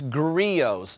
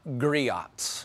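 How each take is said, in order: First: The final T is silent. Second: The final T is pronounced. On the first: The speaker calls it right. "it's Griots" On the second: The speaker calls it wrong. "not Griots"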